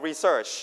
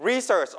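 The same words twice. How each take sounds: First: Research with the second syllable SEARCH stressed. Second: Research with the first syllable RE stressed. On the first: Teacher offers the class a choice, research stressed on SEARCH. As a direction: push the end of research, re-SEARCH. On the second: Teacher offers the class a choice, research stressed on RE. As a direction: hit the start of research, RE-search. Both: Shown as a demonstration. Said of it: "stress on the first or second syllable".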